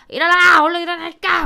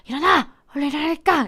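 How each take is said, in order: First: It is said loudly and roughly. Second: It is said quietly and carefully.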